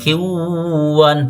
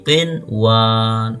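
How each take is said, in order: First: The n sound merges into the following w. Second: The n sound is pronounced clearly before w. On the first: The speaker calls it wrong. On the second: The speaker calls it right.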